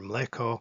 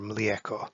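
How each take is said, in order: First: The vowel after ml is a plain e. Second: The vowel after ml is i gliding into e. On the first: The speaker is from the eastern area. "the vowel that is pronounced in the eastern part of this territory as e" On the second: The speaker is from the western area. "pronounced with an extra sound in the western part of this territory as ie"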